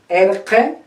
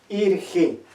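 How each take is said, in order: First: The vowels are open, sounding like 'e'. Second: The vowels are closed, sounding like 'i'. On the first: This is how the Collao variety says it. "Si los del Collao dicen erge" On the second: This is how the Chanca variety says it. "los chancas van a decir simplemente irgi"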